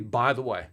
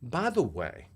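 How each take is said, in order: First: It is said plainly, without drama. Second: It is said dramatically, with a pause.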